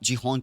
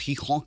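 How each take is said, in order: First: The name begins with a J sound. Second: The name begins with an H sound. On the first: The speaker calls it wrong. "जीहोन जीहोन कह दो आप" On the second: The speaker calls it right. "अगर उसको right rightfully pronounce करना है तो हीहोन कहते हैं"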